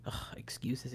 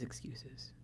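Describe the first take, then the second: First: Dismissive scoff. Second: Fading scoff. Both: Retold or imitated. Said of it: "just thinking".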